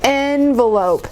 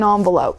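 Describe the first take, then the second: First: The word begins with an 'eh' vowel sound. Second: The word begins with a non-'eh' vowel sound. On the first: "is more work than" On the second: "That's just an easier sound for me to form with my mouth than E"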